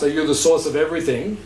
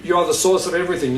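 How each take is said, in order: First: Rising question on "everything"; asked as a question. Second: Quick statement, "everything" falling at the end; stated as fact. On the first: Teacher repeating what was asked, as a rising question. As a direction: lift "everything" at the end to ask. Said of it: "But when I asked". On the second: Teacher clarifying what was said, as a quick falling statement. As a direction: state it briskly, letting "everything" drop. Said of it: "When I said". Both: Retold or imitated.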